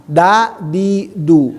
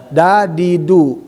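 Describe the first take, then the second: No difference in how they are said.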